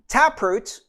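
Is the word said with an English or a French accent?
English. It is said with a plain English accent.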